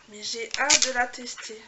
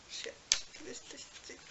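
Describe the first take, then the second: First: Said out loud and slow after the whisper; voiced, louder. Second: Whispered. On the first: Unboxing a gift, now said out loud and slow. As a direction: repeat it aloud, slow and firm. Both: Shown as a demonstration.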